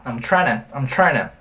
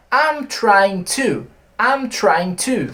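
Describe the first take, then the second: First: "I'm tryna" said as one quick slurred word; reduced tryna. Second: Said in the usual way. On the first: Shown as a demonstration. Teacher demonstrating the shortcut "tryna" to students. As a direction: blend trying to into "tryna". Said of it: "você pode simplesmente falar". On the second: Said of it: "Então, olha só".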